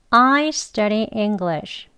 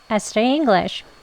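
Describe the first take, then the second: First: The sentence is said slowly and carefully. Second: The sentence is said quickly. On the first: "같이 합니다" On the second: "빨리 해볼게요"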